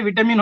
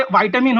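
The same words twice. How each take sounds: First: विटामिन said as VI-ta-min, with a short i; विटामिन with a short clipped vi; vitamin. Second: विटामिन said as VAI-ta-min, with ai; विटामिन opening on a long ai sound; vaitamin. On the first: Caller giving vitamin as an example of two accents, the short vitamin way. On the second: Caller giving vitamin as an example of two accents, the vaitamin way. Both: Shown as a demonstration. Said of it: "जैसे कि देखिए".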